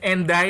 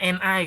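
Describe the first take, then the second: First: First "and I" joined as "en-dai"; linked d pronunciation. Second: "and I" after "bukan" as "en ai"; unlinked pronunciation. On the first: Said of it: "kalau yang and I itu kan bukan and I". ("and I" dibaca "en dai", bunyi d disambung) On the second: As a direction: leave the d out of "and I": en-ai. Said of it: "itu kan bukan and I kan". ("and I" dibaca "en ai", tanpa bunyi d) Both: Shown as a demonstration.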